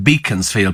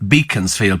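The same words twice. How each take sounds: First: The name is said just as it is spelled. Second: The same.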